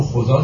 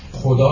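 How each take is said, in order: First: خدا with a z sound in place of d; old Persian pronunciation. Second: Said in the usual way. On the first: Shown as a demonstration. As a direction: say خدا as khoza.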